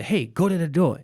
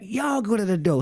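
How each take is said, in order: First: Mild mock yell, raised pitch; retold yell. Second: High-pitched mock yell; retold yell back. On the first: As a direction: call out to a sibling, lightly imitated. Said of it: "we yell to my sister". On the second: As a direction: imitate a sister hollering back, pitched way up. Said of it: "And she yelled back".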